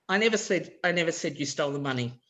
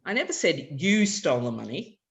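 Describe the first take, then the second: First: I said first, then the sentence quickly; stress on I. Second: "never" raised and lifted; stress on NEVER. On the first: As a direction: hit the word "I" in "I never said you stole the money". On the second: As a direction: hit the word "never", rising. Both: Shown as a demonstration. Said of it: "where I put the stress".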